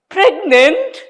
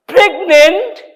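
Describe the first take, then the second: First: High, stunned rising "Pregnant?"; stunned high "Pregnant?" before fainting; shocked question. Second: Even higher, louder "Pregnant?"; rising disbelief, louder second time; louder shocked question. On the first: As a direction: gasp the word out in disbelief. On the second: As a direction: repeat it, more stunned. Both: A narrator's reading.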